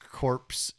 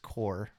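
First: The word ends with a clear 'ps' sound. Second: The word ends without any 'ps' sound. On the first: The speaker calls it wrong. "It's not corpse" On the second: The speaker calls it right. "It's core. It's pronounced"

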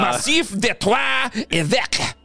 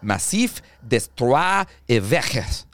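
First: The name is said with a French accent. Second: The name is read with an English accent.

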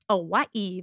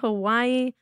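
First: The word is said in an exaggerated Hawaiian way. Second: The word is said in a plain English way.

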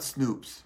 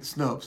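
First: The vowel sounds like 'oo' in 'boot'. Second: The vowel sounds like 'oh' in 'hope'. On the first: The speaker calls it wrong. "It's not Snoops, right?" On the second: The speaker calls it right. "Snopes. Thank you. S-N-O-P-E-S"

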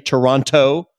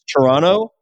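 First: The second T is clearly pronounced. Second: The second T is dropped. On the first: The speaker calls it wrong. "I don't say Toronto" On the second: The speaker calls it right. "I do it correctly. It's Toronto. You don't say that second T"

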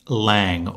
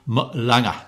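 First: The name is said in a plain accent. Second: The name is said in a Sheffield accent.

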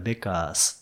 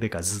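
First: The word ends with a voiceless s sound. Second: The word ends with a voiced z sound. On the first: The speaker calls it wrong. "ベッカースではなくて" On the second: The speaker calls it right. "ベッカーズってなるんです"

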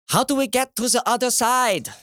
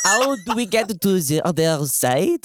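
First: It is spoken in a German accent. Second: It is spoken in a French accent. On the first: The speaker calls it wrong. "That was a German accent, wasn't it?" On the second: The speaker calls it right. "we'll try that again"

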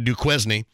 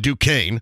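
First: Duquesne is said with a southern Indiana pronunciation. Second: Duquesne is said with the standard pronunciation.

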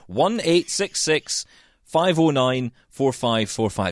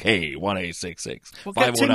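First: It is said in the speaker's own accent. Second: It imitates the cool accent of the AMI guys.

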